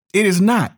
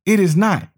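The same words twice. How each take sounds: The two takes are said the same way.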